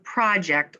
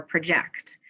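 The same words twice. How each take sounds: First: "project" stressed on the first syllable, PRAH-ject; "project" with an open first vowel, PRAH-ject; noun pronunciation. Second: "project" stressed on the second syllable, pruh-JECT; "project" with a reduced first vowel, pruh-JECT; verb pronunciation. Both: Shown as a demonstration. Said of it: "Which meaning of project or project".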